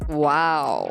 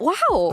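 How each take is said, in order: First: The wow sounds flat and unimpressed. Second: The wow sounds genuinely impressed. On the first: The speaker is not really impressed. The speaker calls it wrong. "you said it like" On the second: The speaker is truly impressed. The speaker calls it right. "Wow is like a genuine. Im- im- I'm impressed"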